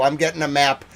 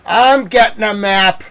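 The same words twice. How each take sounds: First: Said in the usual way. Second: Slower, loud and high; exasperated shout. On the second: Real, not acted. Ranting to viewers about fetching a map, shouting. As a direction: bellow it out in exasperation.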